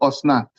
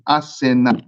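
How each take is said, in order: First: The name is pronounced as Osnat. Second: The name is pronounced as Asenat. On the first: This is how one community says the name. The speaker calls it wrong. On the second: This is the proper form of the name. The speaker calls it right. "That's the proper pronunciation of her name"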